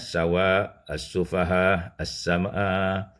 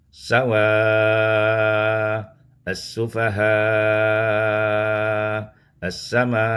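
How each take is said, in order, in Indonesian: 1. Vokal panjang hanya ditahan sebentar. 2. Vokal panjang ditahan sangat lama. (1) "dibacakan dengan qasar" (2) "kita baca dengan isba'"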